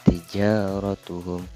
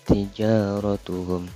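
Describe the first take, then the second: Both takes have the same delivery.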